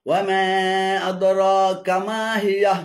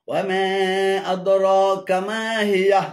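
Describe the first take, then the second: The two takes are said the same way.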